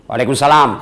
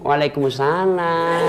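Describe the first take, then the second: First: The voice is firm and plain, not drawn-out. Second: The voice is soft, lilting and drawn-out.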